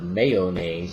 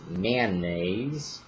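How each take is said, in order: First: The word has its standard, general pronunciation. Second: The word has a local, regional pronunciation. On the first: "instead of mayonnaise" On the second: "that's another regionalism"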